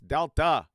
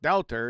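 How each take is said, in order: First: The word ends in a plain vowel, no r. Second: The word ends with an added r sound. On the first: The speaker calls it right. "it's Delta" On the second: The speaker calls it wrong. "It's not Delta"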